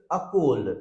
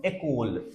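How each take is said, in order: First: "a cold" opening on a neutral "uh", like "uh-kol"; first E as schwa. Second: "école" opening on a clear "ay", like "ay-kol"; accented first E. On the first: Teacher shows word without accent, "a cold" starting "uh". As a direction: say "a cold" with a weak first vowel. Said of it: "this E will be pronounced like a". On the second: Teacher shows accented word, "école" starting "ay". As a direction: say "école" with a bright French é first. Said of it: "But if you put here accent". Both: Shown as a demonstration.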